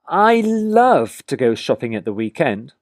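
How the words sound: The word love carries the main stress. "Notice how I stress the word love"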